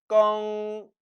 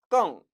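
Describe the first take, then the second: First: The syllable is said on a high level tone. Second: The syllable is said on a sharply falling tone. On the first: "껑 일성으로도 나고" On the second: "껑 사성으로도 발음되는"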